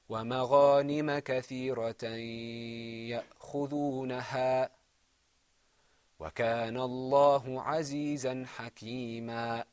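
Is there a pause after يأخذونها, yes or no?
yes. There is a pause after يأخذونها.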